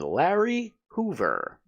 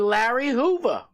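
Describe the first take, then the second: First: The final r of Hoover is clearly pronounced. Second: The final r of Hoover is dropped. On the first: The speaker calls it right. "with R's, hard R's" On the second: The speaker calls it wrong. "I'm pre- pretending I don't have a Boston accent"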